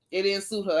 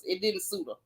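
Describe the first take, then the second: First: Said in the usual way. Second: Dropped softer, almost to herself; quiet aside. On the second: Real, not acted. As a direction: say it under your breath, much softer. Repeats verdict on Kenya's hair.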